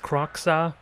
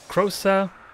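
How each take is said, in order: First: The middle consonant is a hard ks sound. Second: The middle consonant is a soft s sound. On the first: It sounds more brutish. "the proper pronunciation is Kroxa" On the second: It sounds more pleasant. "I'm kind of seeing the X as more of a soft X"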